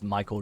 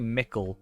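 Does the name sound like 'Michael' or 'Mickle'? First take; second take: Michael; Mickle. First: The name is said like 'Michael'. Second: The name is said like 'Mickle'. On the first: The speaker calls it wrong. "I just purposely say it as Michael Delving now" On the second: The speaker calls it right. "it's supposed to be Mickle"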